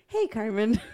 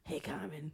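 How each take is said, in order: First: The voice is plain and normal. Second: The voice is raspy and rough.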